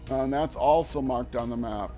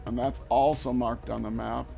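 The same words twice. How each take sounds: The two takes are said the same way.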